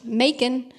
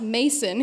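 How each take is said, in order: First: Macon in the questioned local way; disputed pronunciation. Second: Mason, the local way of saying Macon; local Southern pronunciation. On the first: Author retelling the publisher's correction, Macon said the questioned way. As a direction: say Macon slowly, as the disputed word. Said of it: "you mispronounced Macon". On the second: Author correcting the publisher, Macon said locally as Mason. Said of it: "It's pronounced Mason here". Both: Retold or imitated.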